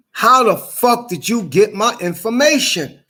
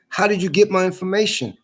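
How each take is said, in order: First: Higher, heated, incredulous demand; outraged questioning; angry demand. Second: Said in the usual way. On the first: Real, not acted. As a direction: demand an answer, voice rising in anger.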